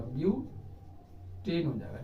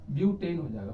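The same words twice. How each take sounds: First: butane हो जाएगा drawn out slowly and softer; slow, soft repeat. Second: Said in the usual way. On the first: Shown as a demonstration. Teacher repeating the compound name for students, slow and soft. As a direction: spell the name out slowly for the class. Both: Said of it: "इसका नाम पूरा".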